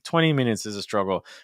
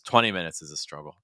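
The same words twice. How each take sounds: First: The voice sits high in pitch throughout. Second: The voice sits lower in pitch throughout. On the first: The speaker calls it wrong. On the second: The speaker calls it right.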